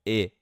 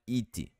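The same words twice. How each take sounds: First: IT as one short syllable; correct IT. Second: IT as two syllables, "ee-tchee"; Brazilian-style IT, vowel added at the end; wrong IT with added vowel. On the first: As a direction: say IT with an open "eh"-like vowel and a bare final T. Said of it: "É simplesmente it". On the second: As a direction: say IT with an extra "ee" after the T. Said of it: "Não é it". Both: Shown as a demonstration.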